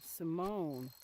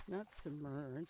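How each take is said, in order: First: Simone with a long open oh, stress on the second syllable; correct Simone. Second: Simone said the wrong way, quietly. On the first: Correcting a friend's name, right take. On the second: Correcting a friend's name, wrong take. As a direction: Simone as the wrong version to avoid. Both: Shown as a demonstration. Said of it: "not Simone, Simone".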